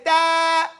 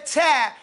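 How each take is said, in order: First: "ta" long and level, no puff; correct ta. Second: "ta" short with a puff on the t; wrong ta. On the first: Teacher showing the right letter, long chanted "ta". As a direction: sustain "ta" on a held note. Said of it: "you say ta". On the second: Teacher showing what not to say, short puffed "ta". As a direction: breathe out the t in a brief "ta". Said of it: "that's the difference. You don't say". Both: Shown as a demonstration.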